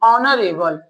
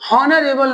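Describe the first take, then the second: First: The word begins with a vowel, h silent. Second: The word begins with a pronounced h sound. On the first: The speaker calls it right. "यह silent होगा" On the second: The speaker calls it wrong. "ये हॉनरेबल नहीं"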